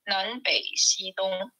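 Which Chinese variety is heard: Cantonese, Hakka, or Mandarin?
Mandarin. The words are read in Mandarin pronunciation. "in Mandarin or Hua"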